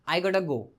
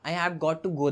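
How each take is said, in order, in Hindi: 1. 'Have got to' को एक शब्द, 'gotta', में समेट दिया जाता है। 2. 'have got to' के हर शब्द को अलग-अलग बोला जाता है।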